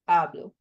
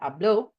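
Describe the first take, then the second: First: The stress is on the first syllable. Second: The stress is on the last syllable. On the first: I speak, in the present tense. "the stress falls on the E" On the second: He or she spoke, in the past tense. "the stress falls on the O at the end"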